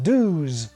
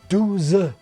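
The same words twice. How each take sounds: First: The word ends without a final vowel. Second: A final vowel is sounded at the end. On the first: It marks a Parisian speaker. "rather than the Parisian douze" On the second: It marks a southern French speaker. "being lazier in the south, with words like douze, twelve being pronounced douze"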